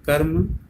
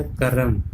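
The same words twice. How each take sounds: First: Said in the usual way. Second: करम in two syllables, ka-ram; wrong pronunciation. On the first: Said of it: "कर्म बोलते हैं". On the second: Shown as a demonstration. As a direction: put a vowel between र and म in करम. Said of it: "इस तरह से नहीं लिखते". (करम को क-रम बोलें)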